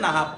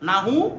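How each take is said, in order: First: The word ends in an f-like consonant. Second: The word ends in a plain u vowel. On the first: The speaker calls it right. "শুদ্ধ উচ্চারণ হচ্ছে নাহাফ" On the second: The speaker calls it wrong. "নাহু বলি না"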